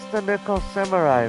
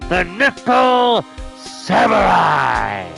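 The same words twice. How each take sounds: First: It is said plainly, with ordinary energy. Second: It is said loudly, like a booming announcer. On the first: The speaker calls it wrong. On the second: The speaker calls it right.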